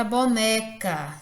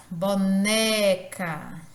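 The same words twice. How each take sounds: First: Said in the usual way. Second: Boneca very slow, NÉ stretched out; stress on NÉ. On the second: Shown as a demonstration. Teacher showing the strong syllable, boneca slowly stretched on NE. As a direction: draw out boneca, leaning on the middle ne. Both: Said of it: "ele é pronunciado com maior intensidade".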